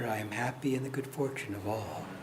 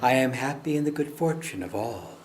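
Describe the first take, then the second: First: It is spoken a little more quietly. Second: It is spoken at normal volume.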